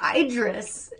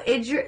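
First: The first vowel is a long 'eye' sound. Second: The first vowel is a short 'i' sound. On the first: The speaker calls it wrong. "She kept saying, Idris" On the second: The speaker calls it right. "short I"

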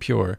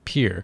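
First: The word is said with a 'pyoor' vowel. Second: The word is said with a 'peer' vowel. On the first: "you weren't saying pure" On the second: "You were saying peer"

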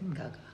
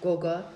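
First: Both vowels sound like 'ah'. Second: Both vowels sound like 'oh'. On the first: This is how American-accented children say it. "with their accents, they say Gaga" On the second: This is the original Zulu form. "It's actually Gogo"

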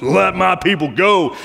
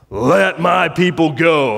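First: It is said in a gravelly voice. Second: It is said in a plain voice.

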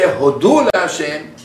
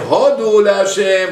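First: Hodu is stressed on its last syllable. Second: Hodu is stressed on its first syllable.

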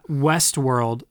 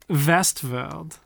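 First: It is said in a plain accent. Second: It is said in a German accent.

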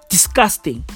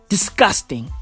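The two takes are said the same way.

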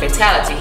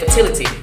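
First: The word is said with its usual fatality sound. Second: The word is said with a blurred, fertility-like sound. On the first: The speaker calls it right. "instead of fatality" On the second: The speaker calls it wrong. "he said fatality instead of"

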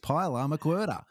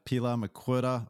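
First: It is said in an exaggerated Australian accent. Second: It is said in his plain, everyday accent.

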